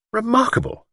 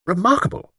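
First: Higher, lightly voiced doctor repeating the word; a hint of a fussy old doctor. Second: Surprised. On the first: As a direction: echo it in a lightly put-on doctor voice. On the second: Acted. Doctor marvels at Luke's claim.

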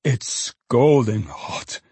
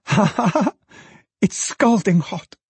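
First: Put-on old father's delight. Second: Put-on high-pitched girlish glee; laugh, then exclaim it high with delight. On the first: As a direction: savour SCALDING at half speed. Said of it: "roared Toby, with a sort of kick". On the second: Daughter laughing over hot basket. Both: A narrator's reading.

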